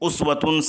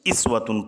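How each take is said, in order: First: The word begins with a u vowel. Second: The word begins with an i vowel.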